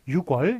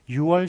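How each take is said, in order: First: It is said with a k sound before wol. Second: It is said without a k sound before wol. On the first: The speaker calls it wrong. "그렇게 하면 틀립니다" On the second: The speaker calls it right. "유월, 시월이라고 해줘야지"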